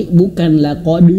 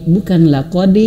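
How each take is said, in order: Both takes have the same delivery.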